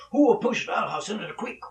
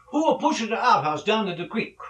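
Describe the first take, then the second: First: Raised, loud bad Italian accent; hammed-up Italian father pressing his question; louder Italian father. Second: Raised, loud mock Italian father; bad Italian accent. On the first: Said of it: "he said more loudly". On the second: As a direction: demand it in a hammed-up Italian accent. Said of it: "my Italian accent sucks".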